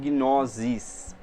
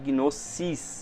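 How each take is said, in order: First: The s is pronounced as a buzzing z. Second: The s is pronounced as a hissing s. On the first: The speaker calls it wrong. "e não gnosis" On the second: The speaker calls it right. "o nosso S aqui é de gnosis"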